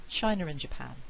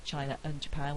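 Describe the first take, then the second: First: "China and Japan" as "China-r-and Japan"; intrusive R. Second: "China and Japan" with a glottal catch before "and"; glottal stop. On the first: Lecturer putting in an unspelt R, intrusive R linking. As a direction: slip an R between "China" and "and". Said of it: "I can have an intrusive R in there". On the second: Lecturer repeating the option without R, glottal stop. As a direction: stop the throat briefly between "China" and "and", no R. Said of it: "with a glottal stop". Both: Shown as a demonstration.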